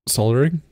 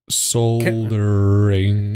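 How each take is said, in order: First: It is said at normal speed. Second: It is said a little slower.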